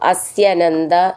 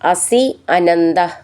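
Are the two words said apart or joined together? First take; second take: joined; apart. First: The two words are blended into one. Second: The two words are said separately.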